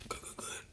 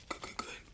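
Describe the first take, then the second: No difference in how they are said.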